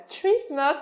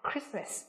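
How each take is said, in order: First: Christmas begun with a CH sound instead of K; mispronounced Christmas. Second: Said in the usual way. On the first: Shown as a demonstration. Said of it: "không phát âm là chờ". (đọc sai "Christmas" với âm "chờ" ở đầu) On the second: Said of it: "mà phải là gì?".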